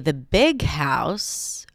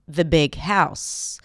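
First: The word big is stressed. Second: The word house is stressed. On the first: The big house is set against a small house. "Then I would stress the adjective" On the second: It is a plain, neutral statement about a house. "Notice how the stress falls on that last word, house"

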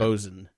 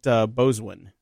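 First: The word is said with a short 'sun' ending. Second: The word is said with a 'swin' ending. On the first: The speaker calls it right. "I believe boatswain is pronounced bosun" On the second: The speaker calls it wrong. "But I call it boswin, not right"

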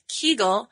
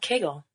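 First: The first vowel sounds like 'key', not 'bagel'. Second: The first vowel sounds like 'bagel', rhyming with it. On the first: "which some people pronounce Kegel" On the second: "we're going to call it Kegel. Because it rhymes with bagel"

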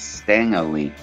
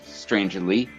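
First: The first word has no R sound after the t. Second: The first word has an R sound after the t. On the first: The speaker calls it right. "there is no R in there" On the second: The speaker calls it wrong. "so many people throw that R in there"

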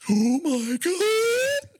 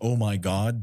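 First: It is spoken on an incoming breath. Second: It is spoken on an outgoing breath.

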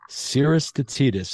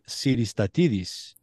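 First: The name is said with American English sounds. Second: The name is said with Greek sounds. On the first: "that's the American pronunciation" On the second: "the Greek Siris Tatidis"

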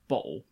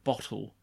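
First: The sounds of the word are run together. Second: The sounds of the word are said separately. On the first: "You just tend to like mush stuff together sometimes" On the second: "instead of bottle"

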